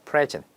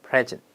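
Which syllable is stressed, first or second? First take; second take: first; first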